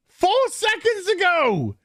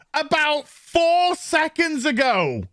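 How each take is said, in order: First: "Four" pitched even higher, the phrase said slowly; a higher, slower retake of "Four seconds ago"; stress on Four. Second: "four" lifted and drawn out at a slow pace; "about four seconds ago", slow, with "four" high; stress on four. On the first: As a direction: hammer "Four" in outrage. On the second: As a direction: lean on "four" in disbelief. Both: Shown as a demonstration.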